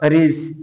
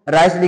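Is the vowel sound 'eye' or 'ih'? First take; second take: ih; eye. First: The vowel sounds like 'ih'. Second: The vowel sounds like 'eye'. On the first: The speaker calls it wrong. "ऐसे उल्टा पुल्टा पढ़ते" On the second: The speaker calls it right. "राइस लिखा है क्या?"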